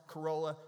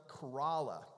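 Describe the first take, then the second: First: Corolla said kuh-ROH-la; non-local pronunciation. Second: Corolla said kuh-RAH-la; local pronunciation. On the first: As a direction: Corolla with a long O, as outsiders say it. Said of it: "I've mispronounced this for years". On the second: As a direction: land on an open AH in Corolla. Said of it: "Corolla, not Corolla". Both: Shown as a demonstration.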